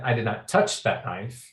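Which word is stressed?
touch. The word "touch" carries the main stress. Something else was done to it. "I did something to it, but maybe I didn't touch it"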